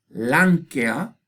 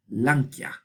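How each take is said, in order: First: "lanquea" with E as its own syllable; E in hiatus. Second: "lanquea" with E as a y-glide; E turned yod. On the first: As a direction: say "lanquea" in three syllables, lan-ke-a. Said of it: "otra vez tenemos una E". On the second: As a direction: say "lanquea" in two syllables, lan-kya. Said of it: "y se hace yod". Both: Shown as a demonstration.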